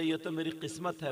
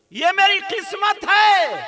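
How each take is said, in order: First: Said in the usual way. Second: High, loud, slow chanting cry; soaring sustained preaching call; exultant preacher's cry. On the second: Retold or imitated. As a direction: belt it out, holding the last word. Same words, now chanted out.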